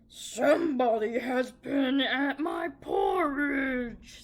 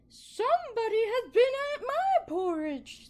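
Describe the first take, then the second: First: It is said in a deep, gruff bear voice. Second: It is said in a medium-pitched bear voice.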